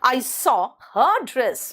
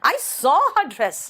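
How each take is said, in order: First: The stress is on the word her. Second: The stress is on the word saw.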